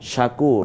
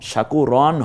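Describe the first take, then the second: First: The word ends on a drawn-out vowel. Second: The word ends with a final 'n' sound. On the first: The speaker calls it right. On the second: The speaker calls it wrong.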